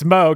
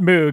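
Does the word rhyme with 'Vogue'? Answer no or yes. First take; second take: yes; no. First: The word rhymes with Vogue. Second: The word does not rhyme with Vogue. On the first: The speaker calls it right. "it's Moog that rhymes with Vogue" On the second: The speaker calls it wrong. "It's not Moog"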